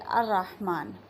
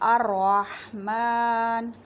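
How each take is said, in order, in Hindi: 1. r की आवाज़ छोटी और एकल है। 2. r की आवाज़ देर तक खिंची हुई और दोहरी है। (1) "तशदीद हटा दी जाए और इसको पढ़ दिया जाए अर्रहमान तो ये गलत है" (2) "अर्रहमान में रा पे तशदीद है"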